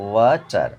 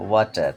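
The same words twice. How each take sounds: First: water parted as "wa", brief gap, "tar"; teacher's two-beat water; split into syllables. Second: Said in the usual way. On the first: Shown as a demonstration. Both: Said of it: "দুটো syllable আছে একটা ওয়ার্ডে".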